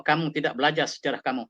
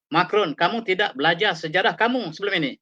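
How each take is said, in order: First: Said in the usual way. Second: Slightly raised, pressing rebuke on kamu; reproaching Macron. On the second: Retold or imitated. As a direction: press the charge home to Macron, stressing kamu. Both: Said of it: "kata Erdogan".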